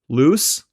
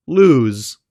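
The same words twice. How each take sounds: First: "Loose" ending in a hissed s, no buzz; voiceless final s. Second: "lose" ending in a buzzing z; voiced final z. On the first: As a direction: end "Loose" on a sharp unvoiced s. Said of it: "they pronounce the voiceless s". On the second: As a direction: lengthen the vowel in "lose" and voice the ending. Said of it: "never devoiced at the end of words". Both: Shown as a demonstration.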